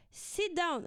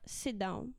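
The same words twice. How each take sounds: First: Firmer sit down. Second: Said in the usual way. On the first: Retold or imitated. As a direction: raise the voice on "Sit down". Third command, raised.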